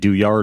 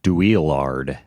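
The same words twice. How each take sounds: First: The name is said with a European pronunciation. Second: The name is said with an American pronunciation. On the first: "you got it right the first time" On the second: "like a typical American might"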